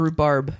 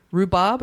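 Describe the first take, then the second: First: Rhubarb said as "roo-barb", R sounded. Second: Rhubarb said as "roo-bob", no R. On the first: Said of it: "No R in the word". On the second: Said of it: "I can't tell with your accent". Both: Shown as a demonstration.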